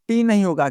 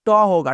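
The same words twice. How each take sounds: First: टी as the English letter name, "tee"; टी named as in the alphabet. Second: ट as an open "ta"; ट as the sound of letter T; Hindi sound for T. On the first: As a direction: say टी with a long ee. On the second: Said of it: "क्या होता है". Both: Shown as a demonstration.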